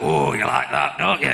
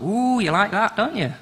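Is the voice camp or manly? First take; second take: manly; camp. First: It is said in a deeper, manly voice. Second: It is said in a camp, theatrical voice. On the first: The speaker calls it right. "You say it like a man would say it" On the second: The speaker calls it wrong. "Not as camp as I do it, obviously"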